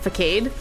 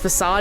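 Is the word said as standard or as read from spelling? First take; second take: spelling-based; standard. First: The word is sounded out as its spelling suggests. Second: The word has its standard spoken pronunciation. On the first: The speaker calls it wrong. "and not facade" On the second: The speaker calls it right. "learn that it was facade"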